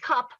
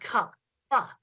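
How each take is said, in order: First: The final p is clipped with no extra vowel. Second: The final p is released with an added vowel. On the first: "switched back and forth between saying cup" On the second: "Stretch out and enunciate the consonants"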